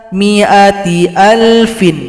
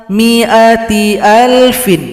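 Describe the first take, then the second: No difference in how they are said.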